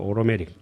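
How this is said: It has a New York accent with a flapped t. "뉴욕 발음으로"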